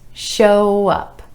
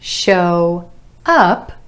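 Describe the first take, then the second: First: The words are linked with a gentle w sound. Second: The two words are said separately. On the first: "gliding from that final O sound in show into the uh in up with a gentle w"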